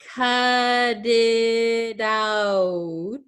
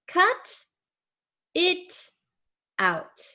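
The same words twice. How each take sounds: First: Said quickly with T sounds flapped like D. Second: Said slowly with clear, crisp T sounds. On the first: "it's going to sound like a D sound" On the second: "When we say it very, very slowly"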